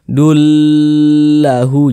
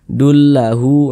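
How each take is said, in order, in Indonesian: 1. Bunyi yang digabung dibaca panjang. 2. Bunyi yang digabung dibaca pendek. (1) "Jangan dibaca dullahu, jangan Dipen" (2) "dibaca pendek saja"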